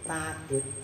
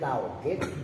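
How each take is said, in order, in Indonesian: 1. Vokal pertama panjang, tanpa hentian. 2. Ada peluncur w setelah vokal pertama. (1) "kalau ini a, alif" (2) "Pakai wau maksudnya"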